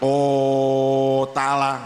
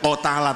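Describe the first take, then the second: First: The first vowel is held far too long. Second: The first vowel is short. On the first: "jangan terlalu panjang, jangan o tala" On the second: "tidak o tala"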